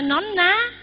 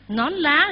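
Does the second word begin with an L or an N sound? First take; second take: N; L. First: The second word begins with an N sound. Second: The second word begins with an L sound. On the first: The speaker calls it wrong. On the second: The speaker calls it right.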